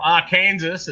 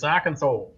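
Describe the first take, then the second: First: The word ends like Kansas, with a final s. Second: The word ends with a saw sound, no s. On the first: The speaker calls it wrong. "but it's not Arkansas" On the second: The speaker calls it right. "it's Arkansas"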